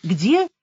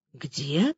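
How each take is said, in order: First: Stunned question, voiced more firmly; dumbfounded repeat. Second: Softer, lower stunned question; dumbfounded. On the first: Woman asking the major once more, dumbfounded. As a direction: ask it in disbelief. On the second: Woman hearing her friend will be in a cell, dumbfounded. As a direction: barely get it out, taken aback. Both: A narrator's reading. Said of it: "оторопела я".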